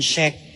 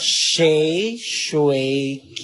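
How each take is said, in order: First: The name is said without its middle syllable. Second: The name is said with all three syllables. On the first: The speaker calls it wrong. "Inalis niya yung, ano, Shui. Diretso na siya sa Shay at saka sa K" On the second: The speaker calls it right. "Dapat Shay, Shui, K"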